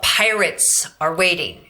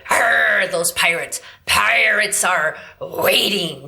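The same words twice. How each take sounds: First: Said in the usual way. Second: Throaty slow pirate snarl; growled pirate. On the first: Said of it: "think of a phrase like". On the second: Shown as a demonstration. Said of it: "And we go".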